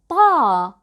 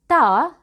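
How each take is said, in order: First: The t is heavy, with the tongue back raised. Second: The t is light, with the tongue back lowered. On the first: The speaker calls it right. "when we pronounce ta, we lift the back of our tongues. We say ta" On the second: The speaker calls it wrong. "We don't say ta"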